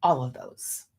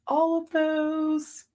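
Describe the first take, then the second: First: Said in the usual way. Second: All of those stretched slow and higher; drawn-out emphasis. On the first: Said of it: "repeated, second stretched". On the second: Real, not acted. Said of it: "repeated, stretched and higher".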